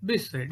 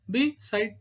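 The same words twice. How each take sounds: First: Said in the usual way. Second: "Beside" broken as be-side; split into syllables. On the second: Shown as a demonstration. Teacher counting to two, "Beside" said beat by beat. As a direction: say "Beside" with a gap between its beats.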